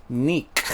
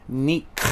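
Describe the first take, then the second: The two takes are said the same way.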